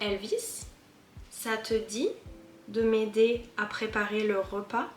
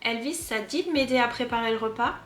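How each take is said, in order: First: Every small word keeps its full vowel sound. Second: The vowels of the small words are dropped. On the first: "now I'm gonna say it like if I if I had to write it" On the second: "All those little words with a E, te, me, de, I just remove the E"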